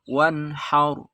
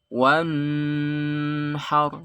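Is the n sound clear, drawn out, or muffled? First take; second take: clear; drawn out. First: The n is crisp, clear and brief. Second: The n is held and drawn out long. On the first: The speaker calls it right. "Izhar artinya jelas" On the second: The speaker calls it wrong. "Atau dilama-lamakan"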